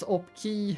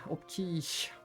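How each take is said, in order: First: The name ends in a plain vowel. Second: The name ends in an sh sound. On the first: "as in a key" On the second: "I have a lot of people say Opkish as well"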